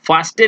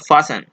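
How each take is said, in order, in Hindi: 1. बीच में t की आवाज़ बोली जाती है। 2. बीच में t की आवाज़ पूरी तरह छोड़ दी जाती है। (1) "फास्टेन इसको नहीं पढ़ेंगे" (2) "टी यहाँ पे प्रोनाउंसिएशन में नहीं यूज होता है"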